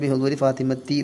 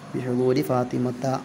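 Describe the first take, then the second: First: The name ends with an 'i' vowel. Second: The name ends with an 'a' vowel. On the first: The speaker calls it wrong. "തെൻവീൻ ഒഴിവാക്കി ബിഹുദൂരി ഫാത്തിമത്തി എന്ന് പറയുന്നുണ്ട് ചിലർ. അങ്ങനെയല്ല" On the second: The speaker calls it right. "ഫത്തഹത്ത് കൊണ്ട് ചേർത്ത് കൊടുക്കണം"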